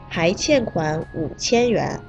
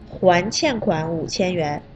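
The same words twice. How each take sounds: First: The first word is pronounced hai. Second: The first word is pronounced huan. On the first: The debtor still owes 5000 yuan. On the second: The debtor has paid back 5000 yuan.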